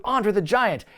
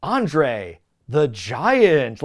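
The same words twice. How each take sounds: First: "Andre the Giant" raised and unbroken; promo-style name drop. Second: Very slow, loud "Andre ... the Giant"; milk "Andre the Giant" for a reaction; dramatic pause. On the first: First mention in recapped promo. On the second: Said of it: "he was waiting for a dramatic pause". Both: Retold or imitated.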